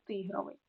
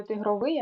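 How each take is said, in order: First: Тигровий stressed on ТИ; stress on first syllable. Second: Тигровий without stress on the first syllable ти; wrong stress on a later syllable. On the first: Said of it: "від слова тигр". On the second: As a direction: move the stress in тигровий off ти, toward the end. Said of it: "Так, не тигровий". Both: Shown as a demonstration.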